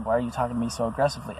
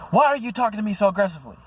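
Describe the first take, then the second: First: Said in the usual way. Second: High, fast, hammed-up whiny accusation; mock girlfriend. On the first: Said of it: "she came at me with an aggressive tone". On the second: Mocking his girlfriend's accusation, high and fast. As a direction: mimic her shrill accusing whine. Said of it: "this girl would say things like".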